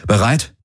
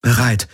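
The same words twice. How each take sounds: First: Rising, asking if she is ready; a quick checking question, rising at the end. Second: Falling, decided reply; a short resolute confirmation; firm answer. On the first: Garland asks before the airlock. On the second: Kirai answers firmly. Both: Acted.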